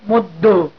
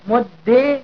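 First: The word ends with a short a vowel. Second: The word ends with a short i vowel. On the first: "والفتحة" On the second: "والكسرة"

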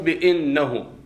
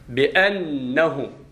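First: The vowel after the opening bi is i. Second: The vowel after the opening bi is a. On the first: The speaker calls it wrong. "مو" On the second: The speaker calls it right. "مفتوحة الهمزة"

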